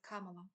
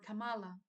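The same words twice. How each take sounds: First: The name is said with its standard pronunciation. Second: The name is said with an imitated mispronunciation. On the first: This is how the name should be said. The speaker calls it right. "instead of Kamala" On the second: This copies how another person mispronounced the name. The speaker calls it wrong. "he has mispronounced Kamala Harris's name quite often, calling her Kamala"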